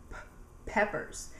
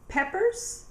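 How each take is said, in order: First: "p" popped alone, pause, then "peppers"; first sound split off. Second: Said in the usual way. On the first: Shown as a demonstration. Teacher has children repeat peppers, first sound split off. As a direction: sound out the p before saying "peppers". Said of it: "They all make the p sound". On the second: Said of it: "Can you say".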